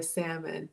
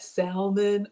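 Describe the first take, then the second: First: "salmon" with the L left silent. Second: "salmon" slowly, with the L sounded; L pronounced. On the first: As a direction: say "salmon" as SAM-un. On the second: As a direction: say "salmon" as SAL-mun. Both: Shown as a demonstration. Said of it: "what the proper pronunciation is".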